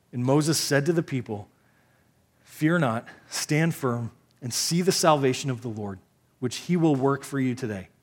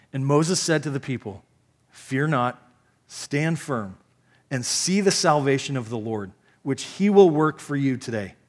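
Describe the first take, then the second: The two takes are said the same way.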